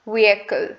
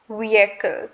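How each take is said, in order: Both takes have the same delivery.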